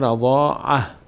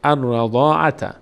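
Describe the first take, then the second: First: The word ends with a plain h sound. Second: The word ends with a t sound and vowel. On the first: The reading stops at this word. "اگر ایستادیم ... فقط ها میمونه" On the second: The reading continues on without stopping. "اگر ادامه دادیم"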